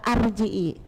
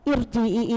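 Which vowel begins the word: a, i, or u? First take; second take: a; i. First: The word begins with the vowel a. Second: The word begins with the vowel i. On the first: "Kenapa kok gak arji'i?" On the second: "Kenapa dibaca ir"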